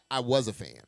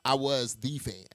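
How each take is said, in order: First: Said in the usual way. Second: "the" set apart and stressed as "thee". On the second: Real, not acted. Speaker insists on their past [name] fandom, stress on THE. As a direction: lean on "the", meaning the number one fan. Corrects "a fan" to THE fan.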